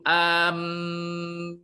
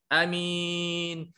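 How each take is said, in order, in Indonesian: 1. Bunyi m dibaca ganda dan ditahan. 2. Vokal pertama dibaca pendek. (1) "dia baca dengan uh, tasydid" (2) "bil qasri"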